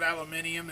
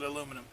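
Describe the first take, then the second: First: It is said the British way. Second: It is said the non-British way.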